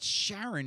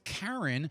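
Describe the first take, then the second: First: The name begins with an SH sound. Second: The name begins with a K sound. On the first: The speaker calls it wrong. "it's not Sharon" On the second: The speaker calls it right. "it's Karen"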